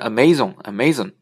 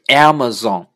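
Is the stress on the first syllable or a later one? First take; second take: later; first. First: The stress is on a later syllable. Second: The stress is on the first syllable. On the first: The speaker calls it wrong. "我们原来经常发生Amazon，其实是不对的" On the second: The speaker calls it right. "应该是Amazon"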